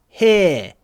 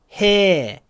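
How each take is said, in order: The two takes are said the same way.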